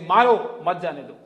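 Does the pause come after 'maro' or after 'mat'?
after maro. The pause comes after the word maro. The speaker is angry and aggressive. "if I don't meditate and I'm having a bad day"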